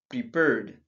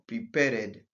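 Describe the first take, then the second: First: The word ends with a plain d sound. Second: The ending is said as an extra syllable. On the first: The speaker calls it right. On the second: The speaker calls it wrong.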